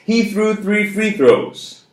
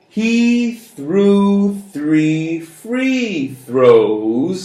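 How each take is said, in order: First: The sentence is spoken very fast. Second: The sentence is spoken a little fast. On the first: "And now real fast" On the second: "A little bit faster"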